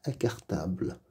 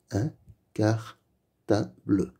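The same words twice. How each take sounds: First: Said in the usual way. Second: Un cartable slowly split into un, car, ta, ble; slow, separated reading of "Un cartable", final e voiced; syllable by syllable. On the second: Shown as a demonstration. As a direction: sound out "Un cartable" with gaps between syllables. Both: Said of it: "Lis les mots".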